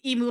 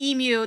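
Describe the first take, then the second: First: The word ends with a plain 'moo' sound. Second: The word ends with a 'myoo' sound. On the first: The speaker calls it right. "emu like a cow" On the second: The speaker calls it wrong. "They said it wasn't emu"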